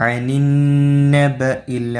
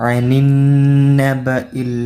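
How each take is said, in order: No difference in how they are said.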